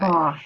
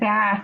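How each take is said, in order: First: It is said in an English accent. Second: It is said in an American accent. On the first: "with an English accent" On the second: "with an American accent"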